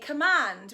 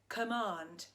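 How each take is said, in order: First: The vowel is a short 'a' sound. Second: The vowel is a long 'ah' sound. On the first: It rhymes with 'band'. "some people say command, which actually would be better" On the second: This is how the speaker grew up saying it. "I say command like this, ... it doesn't rhyme with not in a band"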